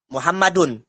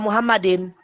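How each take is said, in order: First: The name ends with an 'un' sound. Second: The name ends with an 'in' sound. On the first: The speaker calls it right. "Menggunakan dommah atau rofa" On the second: The speaker calls it wrong. "harokatnya kasroh"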